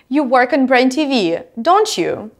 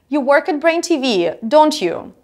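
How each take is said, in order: First: The pitch rises on the tag at the end. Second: The pitch falls on the tag at the end. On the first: The speaker does not know and is really asking. "When I actually want to ask a question, then my intonation is rising in the end" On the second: The speaker is fairly sure and wants agreement. "if I'm seeking confirmation, my intonation is falling"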